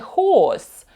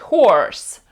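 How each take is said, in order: First: The r after the vowel is not clearly heard. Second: The r after the vowel is clearly heard. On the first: "Британці більше схильні вимовляти horse" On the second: "Американці кажуть horse"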